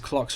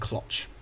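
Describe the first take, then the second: First: The word ends with a hard 'ks' sound. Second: The word ends with a raspy, breathy 'h'. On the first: "you can say it's clocks" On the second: "Where you pronounce the X like the Greeks do"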